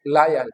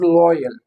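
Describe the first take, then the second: First: लायल as "lie-al", with an "eye" vowel; wrong pronunciation. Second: लॉयल as "loy-al", with an "oy" vowel; correct pronunciation. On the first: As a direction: demonstrate loyal mispronounced as "lie-al". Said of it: "this is not लायल". (लॉयल की जगह लायल) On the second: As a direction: model loyal with a rounded "oy". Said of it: "this is लॉयल". (लॉयल, "ऑय" की आवाज़ के साथ) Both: Shown as a demonstration.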